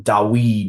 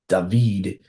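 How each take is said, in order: First: The middle sound is a w consonant. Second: The middle sound is a v consonant. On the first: This is a later form of the name. "not not Dawid" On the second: This is a modern form of the name.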